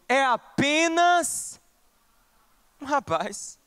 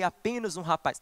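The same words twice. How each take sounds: First: The tone is mocking and scornful, belittling. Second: The tone is gentle and sincere, without mockery. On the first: The speaker wants to belittle the other person. The speaker calls it right. "num tom assim de deboche, de quem quer diminuir o outro" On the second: The speaker cares for the other person. The speaker calls it wrong. "Não, não, não. Saul não disse assim"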